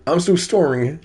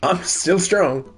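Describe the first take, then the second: First: High-voiced "storing" in place of strong; misspelt "storing". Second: Slow, high "I'm still strong", strong in one syllable; "strong" said normally. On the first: Correcting the read of fake Craig's note, "storing" as misspelt. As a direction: swap the sounds of strong into "storing". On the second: Acted. Reading fake Craig's note, "strong" pronounced normally. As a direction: say "strong" as the normal word, stretched out. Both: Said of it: "Oh, sorry".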